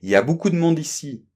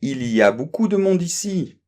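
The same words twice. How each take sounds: First: It is said quickly, with il y a reduced. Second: It is said at a normal, careful pace.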